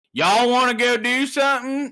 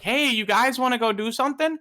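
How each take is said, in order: First: Texan accent. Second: Said in the usual way. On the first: Shown as a demonstration. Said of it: "Texas, it's like". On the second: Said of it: "you'd be like".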